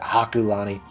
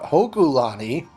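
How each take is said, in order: First: The first vowel sounds like 'ah'. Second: The first vowel sounds like 'oh'. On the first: The speaker calls it wrong. "I mispronounced that in the last episode. I called it Hakulani" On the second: The speaker calls it right. "It's Mount Hokulani"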